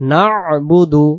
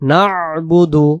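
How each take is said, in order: Both takes have the same delivery.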